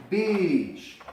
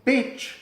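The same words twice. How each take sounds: First: Beach with a stretched long ee. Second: Bitch with a short, high, quick i. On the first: Teacher modelling beach's long vowel. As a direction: hold the ee in beach. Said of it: "con su doble vocal". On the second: Teacher contrasting bitch with beach. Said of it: "si decimos". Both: Shown as a demonstration.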